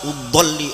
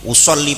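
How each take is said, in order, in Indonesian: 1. Konsonan di tengah itu bunyi d yang ditekan. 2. Konsonan di tengah itu bunyi s yang ditekan. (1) "Kalau salah kedot" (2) "usolli pakai shot gitu"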